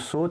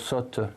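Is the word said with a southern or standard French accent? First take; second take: standard; southern. First: It is said with a standard French vowel. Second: It is said with a southern French vowel. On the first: "la prononciation de saute" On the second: "qu'on peut prononcer dans certaines régions, notamment dans le sud"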